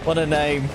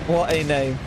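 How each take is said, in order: Both takes have the same delivery.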